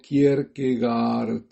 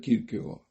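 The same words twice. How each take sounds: First: The name is read the way it is spelled. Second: The name is said in its native pronunciation. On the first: "lo verán escrito como Kierkegaard" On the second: "pero se pronuncia Kierkegaard"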